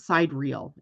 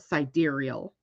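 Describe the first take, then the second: First: The word sounds like the two words side reel. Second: The word is said as one word, not side reel. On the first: The speaker calls it wrong. "so why not pronounce it side reel" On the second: The speaker calls it right. "it's actually S I D E R E A L, sidereal"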